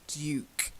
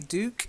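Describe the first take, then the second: First: It is said with a British pronunciation. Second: It is said with an American pronunciation. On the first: "I'll give you the British pronunciation" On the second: "I'm sure Americans say Duke"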